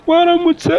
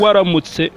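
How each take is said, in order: First: Put-on much higher, childlike greeting; little girl voice. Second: Said in the usual way. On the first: Imitating a little girl's greeting.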